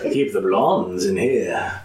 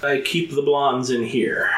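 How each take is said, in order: First: It is said in a creepy, sinister way. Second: It is said in a plain, flat way.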